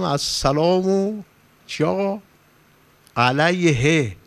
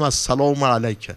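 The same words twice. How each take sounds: First: «السلام» and «علیه» stretched slowly, a pause between them; slow drawn-out greeting. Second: Said in the usual way. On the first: Shown as a demonstration. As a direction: draw the greeting out slowly, as if to someone absent.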